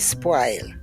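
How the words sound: The vowel is a broad, open A sound. "we do not use the rounded vowels in Jamaica. They're all broad A vowels. we say spoil"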